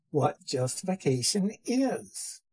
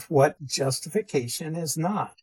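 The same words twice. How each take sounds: First: "is" stressed at the end, falling. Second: "not" stressed at the end, falling. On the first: Teacher turns to the positive definition, stress on "is". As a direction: land firmly on "is" to close the phrase. Contrasts what it is not and is. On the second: Teacher sums up what the term excludes, stress on "not". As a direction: land firmly on "not" to close the phrase. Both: Real, not acted.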